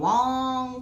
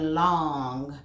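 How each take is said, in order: First: The word begins with a w sound. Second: The word begins with an l sound. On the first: The speaker calls it wrong. "Are you saying wong" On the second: The speaker calls it right. "or are you saying long?"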